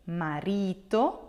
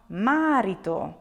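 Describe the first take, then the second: First: Marito with the middle syllable RI lengthened: ma-RI-to; stress on RI. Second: Marito with the first syllable MA stretched and punched: MA-rito; stress on MA. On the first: Teacher shows learners what you will say, marito stressed on RI. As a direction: lean on the RI in marito. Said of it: "accent here will be on ri". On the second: Teacher shows learners what not to say, marito stressed on MA. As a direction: wrongly hit the MA at the start of marito. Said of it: "and not marito". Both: Shown as a demonstration.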